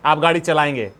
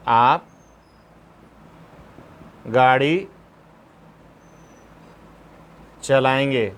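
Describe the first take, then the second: First: Said in the usual way. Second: "आप" "गाड़ी" "चलाएंगे" each said alone with long pauses between; slow dictation, word by word. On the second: Shown as a demonstration. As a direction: dictate it one word at a time, slowly. (धीरे-धीरे, एक-एक शब्द रुककर) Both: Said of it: "अगर मान लो ऐसा होगा".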